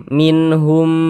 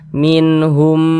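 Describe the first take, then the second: The two takes are said the same way.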